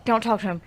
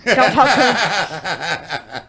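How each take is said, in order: First: Said in the usual way. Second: Don't talk to him stretched very slow with a laugh; drawn-out laughing repeat. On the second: Retold or imitated. Repeating the warning to herself, slow and laughing. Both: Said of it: "And I'm like".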